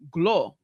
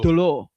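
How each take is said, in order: First: The word starts with a G sound. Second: The word starts with a D sound. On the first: The speaker calls it wrong. "like with a G" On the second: The speaker calls it right. "but it's actually dlo"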